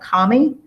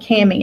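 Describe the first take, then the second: First: The name is said in an English way. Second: The name is said in a Kentucky way. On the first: This is how people in England say it. "in England they call it kami" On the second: This is how the speaker's own group says it. "we've always called it cami. Maybe we're just pronouncing it in a Kentucky fashion"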